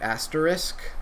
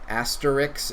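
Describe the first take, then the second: First: The sounds are in normal order, ending in 'sk'. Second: The last two sounds are swapped, ending in 'ks'. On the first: "instead of" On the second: "Kind of like when people say"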